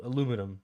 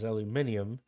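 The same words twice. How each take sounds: First: Aluminum as "uh-LOO-mih-num"; aluminum said the North American way, "uh-LOO-mih-num"; American pronunciation. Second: Aluminium as "al-yoo-MIN-ee-um"; aluminium with an extra "ee" before the final "um"; proper British pronunciation. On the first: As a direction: stress the LOO in aluminum, four syllables. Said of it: "they say alu-, aluminum, like the Americans". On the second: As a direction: stress the MIN in aluminium, five syllables. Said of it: "I believe the proper term is aluminium". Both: Shown as a demonstration.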